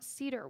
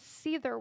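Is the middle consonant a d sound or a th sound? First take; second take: d; th. First: The middle consonant is a d sound. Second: The middle consonant is a th sound. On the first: The speaker calls it wrong. "not Cedar Witch" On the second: The speaker calls it right. "this little upside down nine with the X through it is a th sound"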